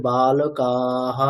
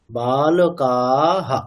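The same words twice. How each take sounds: First: বালকাহা with the হা drawn out long; wrong pronunciation. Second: বালকাহা with a short clipped হা at the end; correct pronunciation. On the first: Teacher shows the wrong way to say বালকাহা. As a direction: stretch the final হা in বালকাহা. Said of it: "এরকম বলবো না যে". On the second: Teacher shows the right way to say বালকাহা. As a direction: keep the final হা in বালকাহা short. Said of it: "এরকম". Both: Shown as a demonstration.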